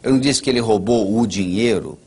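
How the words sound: The stress is on "dinheiro".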